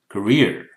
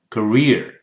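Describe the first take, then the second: Both takes have the same delivery.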